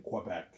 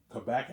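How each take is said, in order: First: "Quebec" with an opening kw; "Quebec" pronounced kweh-BEC. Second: "Quebec" with a plain k; "Quebec" pronounced kuh-BEC. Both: Shown as a demonstration. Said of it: "two ways of pronouncing it".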